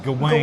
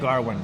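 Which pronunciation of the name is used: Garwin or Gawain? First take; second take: Gawain; Garwin. First: The name is said the schoolbook way, Gawain. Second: The name is said the film's way, Garwin. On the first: This is the form learned in school. "I learned it in school was Gawain" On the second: This is the form used in the film. "And I'll say it Garwin. I like it like that"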